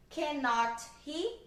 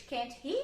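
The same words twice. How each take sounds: First: "Cannot he?" said slowly as a full separate word; wrong uncontracted form. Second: "can't he?" quick, one clipped syllable then a rise; correct contracted form. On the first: Teacher shows students the form they must not use, slow. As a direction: drag out "Cannot" deliberately as the wrong example. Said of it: "Eu não posso falar assim". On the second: Teacher gives students the correct tag question, light rise. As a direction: snap "can't" short and lift on "he". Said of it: "Sempre a gente vai usar a forma abreviada". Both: Shown as a demonstration.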